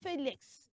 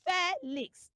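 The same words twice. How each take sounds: First: Felix as "FEE-lix"; long EE at the start of Felix; correct pronunciation. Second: Felix as "FEH-lix"; short E at the start of Felix; wrong pronunciation. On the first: Teacher models it for children, Felix as "FEE-lix". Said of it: "we would say". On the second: Teacher warns children, Felix as "FEH-lix". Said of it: "Do not say". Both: Shown as a demonstration.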